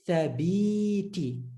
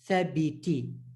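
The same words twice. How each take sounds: First: The vowels are stretched long. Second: The vowels are kept short. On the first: The speaker calls it wrong. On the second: The speaker calls it right.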